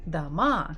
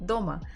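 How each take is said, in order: First: The stress is on the second syllable. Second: The stress is on the first syllable. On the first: "could be in the second column if we say дома" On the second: "the first one is very strong, kind of hard"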